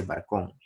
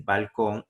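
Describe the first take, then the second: First: "barcón" with a tapped r where the l belongs; l turned to r. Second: Said in the usual way. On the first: Shown as a demonstration. Teacher showing the class the l-to-r swap in "barcón". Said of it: "hay gente que dice barcón". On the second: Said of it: "en vez de decir balcón".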